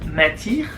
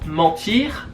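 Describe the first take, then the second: First: The first vowel is changed to an 'un' sound. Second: The first vowel is the standard French 'en' sound. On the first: "en ch'timi, le en se transforme en un" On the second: "si tu veux dire"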